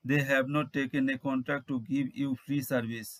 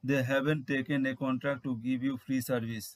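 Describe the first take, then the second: First: The words have not are said in full. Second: The words have not are contracted to haven't. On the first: "এর ইংরেজি হবে" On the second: "বা এভাবে আমরা বলতে পারি"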